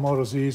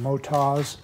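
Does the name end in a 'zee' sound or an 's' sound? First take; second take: zee sound; s sound. First: The name ends with a spelled-out 'zee' sound. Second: The name ends with a short 's' sound. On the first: The speaker calls it wrong. "I call them Moto Zs" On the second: The speaker calls it right. "is the correct pronunciation"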